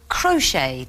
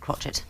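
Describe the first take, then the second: First: The final T is silent, ending in a vowel. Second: A T sound is pronounced at the end. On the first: The speaker calls it right. "they're all words that close with a silent letter" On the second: The speaker calls it wrong. "though you pronounce it crotchet"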